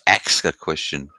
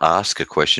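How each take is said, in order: First: The first word ends with the sounds k then s. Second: The first word ends with the sounds s then k. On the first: "it's ax a question" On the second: "it's not ask a question"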